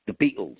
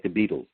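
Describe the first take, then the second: First: the band's name with the T left out, Liverpool style; dropped T. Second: Said in the usual way. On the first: Shown as a demonstration. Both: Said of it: "they wouldn't say the T".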